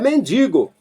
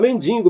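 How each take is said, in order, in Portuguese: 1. Não há som de n extra antes do g. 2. Há um som de n extra antes do g. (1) "É mendigo, entendeu?" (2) "noventa e nove por cento do povo, quando menciona mendigo, fala mendigo"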